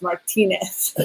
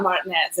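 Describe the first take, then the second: First: "Martinez" slowly as mar-TEE-nez; "Martinez" corrected, three syllables, stressed in the middle; corrected pronunciation. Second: "Martinez" squeezed to mart-NEZ; "Martinez" with the middle "tee" dropped; mispronounced surname. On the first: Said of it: "it's Martinez". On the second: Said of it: "it's not Martinez". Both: Shown as a demonstration.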